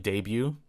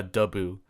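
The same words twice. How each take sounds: First: "debut" read as it looks, spelling pronunciation; spelled-out reading. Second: "debut" in its proper Filipino pronunciation, not as spelled. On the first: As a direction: say "debut" just the way it is written, letter by letter. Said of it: "it's spelled like debut". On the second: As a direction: give "debut" the way it is really pronounced at the party. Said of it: "but it's pronounced a debut". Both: Shown as a demonstration.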